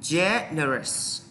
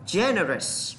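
First: "Generous" slowly, long first "Gen", then "erous"; stress on first syllable. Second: Said in the usual way. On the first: Shown as a demonstration. Teacher shows students the stress mark, slow demo. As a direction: stretch and split "Generous" after the stressed opening. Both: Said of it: "Dấu nhấn này nè".

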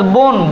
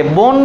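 First: বন with an o vowel, bon, the correct way; ও-কারে সঠিক উচ্চারণ. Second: বন with a plain অ vowel, bɔn, the wrong way; অ-কারে ভুল উচ্চারণ. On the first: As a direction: say বন as bon to show the right vowel. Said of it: "বয়ের সাথে ওকার আছে". (সঠিক উচ্চারণ: বন কে বোন এর মতো বলা) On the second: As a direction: say বন as bɔn to show the mistake. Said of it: "এটাকে বলি না বন". (ভুল উচ্চারণ: বন কে বঅন বলা) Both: Shown as a demonstration.

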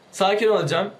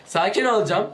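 No difference in how they are said.

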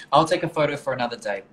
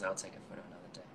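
First: A louder, brighter announcement; said out to the room, louder; louder first take. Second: Much softer aside to oneself; a quiet, muttered echo; soft repeat. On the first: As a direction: call it out louder. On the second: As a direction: say it again under the breath. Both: Real, not acted. Repeats a line to camera.

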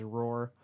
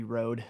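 First: "roar" read as written, a roar not a road; the typo "roar" said literally; misspelled word. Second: "road" said properly with a final d; the corrected "road"; corrected word. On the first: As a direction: say "roar" with an r at the end. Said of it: "he kinda spelled that, it says roar". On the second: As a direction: say "road", ending on d. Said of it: "It's supposed to be road". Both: Shown as a demonstration.

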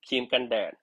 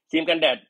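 First: Said in the usual way. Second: Says ครีมกันแดด again, louder and higher, for emphasis; louder repeat. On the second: Shown as a demonstration. (พูด ครีมกันแดด ซ้ำให้ดังและสูงขึ้น) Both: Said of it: "อันนี้คือ".

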